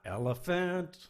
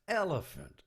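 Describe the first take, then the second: First: The pitch does not drop from the first syllable. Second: The pitch starts high and drops after the first syllable. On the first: The speaker calls it wrong. "Not elephant. It doesn't go that way" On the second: The speaker calls it right. "It goes from the top and drops down when you say it"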